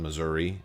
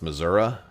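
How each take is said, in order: First: The final vowel is an 'ee' sound. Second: The final vowel is an 'uh' sound. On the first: The speaker calls it wrong. "I don't think you're supposed to say e" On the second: The speaker calls it right. "she would tell me it was pronounced Missouri"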